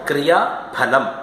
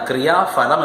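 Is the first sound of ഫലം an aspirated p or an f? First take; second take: aspirated p; f. First: The ഫ is an aspirated p sound. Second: The ഫ is an f sound. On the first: The speaker calls it right. "പ ശബ്ദത്തോട് ഹകാരം ചേർത്താൽ മാത്രം മതി" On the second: The speaker calls it wrong. "ഫാൻ എന്നുള്ളതിന് വേണ്ടിയിട്ട് ... പറഞ്ഞ് തെറ്റിക്കുന്നു"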